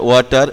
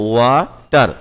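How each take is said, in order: First: Said in the usual way. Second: "ওয়াটার" slowly as wa, tar; slow syllables. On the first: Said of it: "এখানে কিন্তু ওয়া হয়েছে". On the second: Shown as a demonstration. Teacher showing w gives wa in water, slow syllables. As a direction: hold the wa in "ওয়াটার", then tar. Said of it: "এই যে ওয়াটার".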